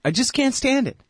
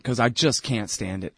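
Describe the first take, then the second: First: High strained whine of frustration; exasperated whine. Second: Said in the usual way. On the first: Real, not acted. Pundit venting about her voice, high exasperated whine. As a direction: whine it like you can't take it.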